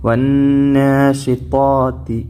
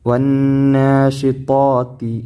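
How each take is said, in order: Both takes have the same delivery.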